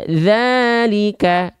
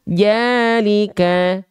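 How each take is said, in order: First: The word starts with a soft 'th' sound. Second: The word starts with a 'j' sound. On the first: The speaker calls it right. "yang harusnya kita baca zalika" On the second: The speaker calls it wrong. "tapi kita baca jalika"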